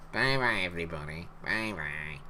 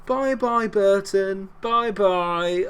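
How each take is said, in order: First: Lightly voiced children's TV farewell, lower and softer; a hint of the old Sooty sign-off; Sooty goodbye. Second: A high, sing-song mocking farewell; taunting goodbye. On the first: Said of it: "No, that was Sooty". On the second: Real, not acted. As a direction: wave the rival off cheekily. Taunting the rival team.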